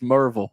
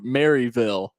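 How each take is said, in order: First: The name is squeezed into two syllables. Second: The name is said in full with three syllables. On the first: This is how everyone actually says it. "It's always Merville" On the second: Locals do not say it this way. "I've never heard anyone say Mary Maryville"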